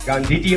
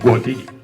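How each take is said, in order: First: The first vowel is an 'aa' sound. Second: The first vowel is an 'o' sound. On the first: This is the standard way of saying the name. "એમ નું બોલે" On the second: This is how the Mehsana dialect says the name. "ઓ વધે પડે"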